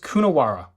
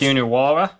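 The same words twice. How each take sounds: First: It is said in a plain American accent. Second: It is said in an Australian accent.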